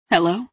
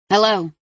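First: Tentative, questioning hello with a rising end; softer, scared. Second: Curt, annoyed phone answer; sharp, angry. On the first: Delia asks into the sobbing on the line, scared. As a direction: ask it cautiously, a touch afraid. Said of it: "her voice softer, scared". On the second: Delia picks up the maddeningly ringing phone, sharp and angry. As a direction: answer sharply, pitch falling at the end. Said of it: "Her tone was sharp, angry". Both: A narrator's reading.

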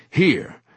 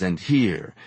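First: Here, said higher and louder; here, urgent discovery; excited find. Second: Said in the usual way. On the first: A narrator's reading. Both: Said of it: "here repeated".

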